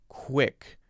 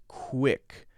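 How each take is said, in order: Both takes have the same delivery.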